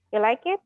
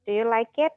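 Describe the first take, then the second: First: "You like it?" with a rising tune at the end, no do; rising question tune. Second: Said in the usual way. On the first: Shown as a demonstration. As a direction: ask it with only the tune rising. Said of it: "Cuman nadanya aja". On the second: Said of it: "grammar yang perfectnya".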